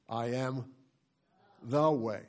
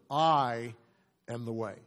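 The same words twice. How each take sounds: First: The stress falls on "the". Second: The stress falls on "I".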